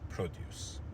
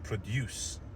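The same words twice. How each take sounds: First: The stress is on the first syllable. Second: The stress is on the second syllable. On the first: It is the noun. "we shifted the stress to the first syllable" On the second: It is the verb. "the stress was on the second syllable"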